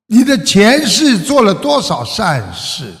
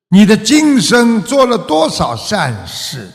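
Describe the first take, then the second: First: 你的前世 with 世 stretched and prominent; stress on 前世. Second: Slow, with 今 hit high and clear; stress on 今生. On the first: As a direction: lean on 前世 as the word that matters. (重读“前世”，“世”字拉长突出) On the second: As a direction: lean on 今生, set against 前世. (放慢语速，重读“今生”的“今”字) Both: Shown as a demonstration. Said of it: "前世 vs 今生 contrast".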